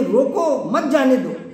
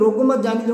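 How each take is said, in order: First: There is a pause right after 'roko'. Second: 'Roko mat' is joined, pause after 'mat'.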